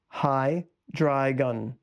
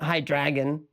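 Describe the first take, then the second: First: The ending sounds like 'dry gun'. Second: The ending sounds like 'dragon'. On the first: The speaker calls it right. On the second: The speaker calls it wrong.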